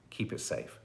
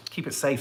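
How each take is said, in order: First: Soft unvoiced whisper, trailing away. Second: Said in the usual way. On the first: Host echoing the sign-off to viewers, whispered. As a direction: breathe it like a secret. Whispered echo of own reminder.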